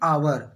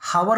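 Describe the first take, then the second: First: The word starts with a vowel, no h sound. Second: The word starts with an audible h sound. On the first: The speaker calls it right. "I have an आवर" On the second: The speaker calls it wrong. "हावर नहीं"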